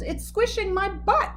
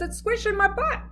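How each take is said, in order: First: High whiny grumble; grumbling complaint. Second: High, whiny repeat; whiny complaint. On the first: A narrator's reading. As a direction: groan it out. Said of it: "He groaned and he grumbled". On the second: Retold or imitated. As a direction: whine about the squeeze. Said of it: "and he says".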